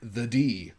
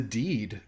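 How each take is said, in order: First: The final D sound is dropped. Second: The final D sound is clearly pronounced. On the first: It sounds like the letter D. The speaker calls it wrong. "he is not enunciating that last D" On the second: The word meant is a deed. The speaker calls it right. "he's saying the deed"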